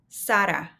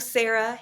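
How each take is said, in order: First: The name is said with Spanish sounds. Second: The name is said with English sounds. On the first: The speaker calls it right. "This name is Sara" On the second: The speaker calls it wrong. "No Sarah here"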